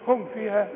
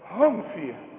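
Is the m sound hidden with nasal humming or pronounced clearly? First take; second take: clear; hidden. First: The m is pronounced clearly without hiding. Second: The m is hidden with a nasal hum. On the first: The speaker calls it right. "تقول لي هم فيها" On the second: The speaker calls it wrong. "انت بتغني يبقى بقى هم فيها"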